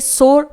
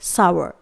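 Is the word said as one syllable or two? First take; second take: one syllable; two syllables. First: It is said as one syllable, like 'sore'. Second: It is said as two syllables, like 'sow-er'. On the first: The speaker calls it wrong. "इसे सोर pronounce नहीं किया जाता है, ये एक गलत pronunciation है" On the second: The speaker calls it right. "इसे हम प्रोनाउंस करेंगे सावर"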